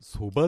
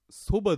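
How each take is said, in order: First: The word has the Niigata pitch pattern. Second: The word has a non-Niigata pitch pattern. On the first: The speaker calls it right. "新潟の方はそばって言いますから" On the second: The speaker calls it wrong. "そばでなくて"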